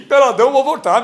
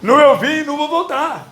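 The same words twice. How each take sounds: First: "peladão" said with full stress and a falling end; slangy word. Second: "Nu" said raised and firm as the proper term; corrected word. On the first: Pastor jokes with "peladão" to the church, stressed. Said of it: "Não fala peladão". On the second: Pastor corrects his wording to the church, firmly. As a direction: swap in "Nu" clearly. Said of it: "fala nu". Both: Shown as a demonstration.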